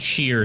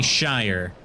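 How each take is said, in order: First: The syllable rhymes with 'fear'. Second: The syllable rhymes with 'fire'. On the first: The speaker calls it wrong. "not sheer sauce" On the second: The speaker calls it right. "it's definitely Shire"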